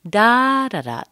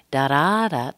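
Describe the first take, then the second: First: DA-da-da, first beat high and loud; first-syllable stress. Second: Da-DA-da, weight on the second beat; middle-syllable stress. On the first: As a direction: punch the first "da" of "da-da-da", then fall. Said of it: "but in this case". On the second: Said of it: "We often hear da-da-da". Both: Shown as a demonstration.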